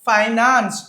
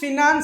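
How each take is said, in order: First: The first syllable has an 'eye' vowel. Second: The first syllable has a short 'i' vowel. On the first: The speaker calls it right. "ఫైనాన్స్ ఉందండి" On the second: The speaker calls it wrong. "ఫినాన్స్ అనే pronunciation లేదు"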